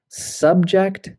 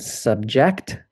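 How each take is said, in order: First: SUB-ject, with the stress on SUB; first-syllable stress. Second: Sub-JECT, with the stress on JECT; weak first syllable in subject, strong second. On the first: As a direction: say subject as the noun, SUB-ject. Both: Shown as a demonstration. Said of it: "it can change the pronunciation".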